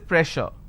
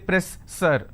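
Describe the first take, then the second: First: The middle consonant is a hushing sh sound. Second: The middle consonant is a hissing s sound. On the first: The speaker calls it right. "double s will become sh sound. So I say pressure" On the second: The speaker calls it wrong. "I can't say press sir"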